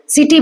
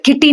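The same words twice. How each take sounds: First: सिटी opened with an 's' sound; soft C. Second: किटी opened with a 'k' sound; city misread as किटी, with a hard C; wrong hard C. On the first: Teacher showing students the correct sound, soft C in सिटी. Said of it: "सौ sound बोल रहे हैं". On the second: Teacher showing what we don't say, hard C in किटी. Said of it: "किटी नहीं बोल रहे". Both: Shown as a demonstration.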